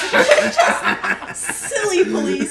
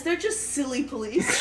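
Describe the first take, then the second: First: High, slow and loud through laughter; drawn-out mocking repeat. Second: Said in the usual way. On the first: Real, not acted. Comic repeating her old bit about Canadian police, drawn out and high. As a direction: stretch it out for comic effect.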